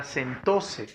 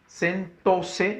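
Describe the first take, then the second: First: Said in the usual way. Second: SENTÓSE split into sen-tó-se; sentóse spaced out by syllable. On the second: Shown as a demonstration. Teacher checking where the accent falls, syllable by syllable.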